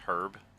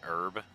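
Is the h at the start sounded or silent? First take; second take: sounded; silent. First: The h at the start is sounded. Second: The h at the start is silent.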